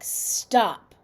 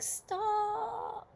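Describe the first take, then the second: First: It is said firmly and fairly loudly. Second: It is said softly and weakly. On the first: The speaker wants the touching to end. The speaker calls it right. "you say it kind of loud, but you're not screaming" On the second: The other person probably won't stop. The speaker calls it wrong. "if you say it in a voice like"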